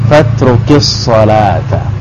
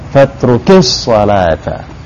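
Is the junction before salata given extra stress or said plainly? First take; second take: plain; stressed. First: The junction before salata carries no extra stress. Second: The junction before salata carries extra stress.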